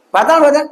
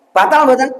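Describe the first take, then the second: First: Higher, pushing the question again; calling out the question a second time; insistent repeat. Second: Said in the usual way. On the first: Real, not acted. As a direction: prod the silent crowd for an answer. Repeats question after no answer.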